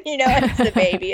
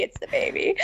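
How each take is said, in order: First: Said in the usual way. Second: Hushed whisper, higher; whispered aside. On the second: Real, not acted. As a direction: whisper it under your breath. Repeats the line as an aside.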